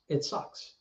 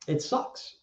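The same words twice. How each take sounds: First: It sucks breathed out unvoiced, very soft; a real whispered repeat, voice gone. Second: Said in the usual way. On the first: Real, not acted. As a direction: let it fall away to a whisper.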